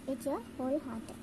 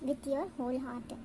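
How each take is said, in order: No difference in how they are said.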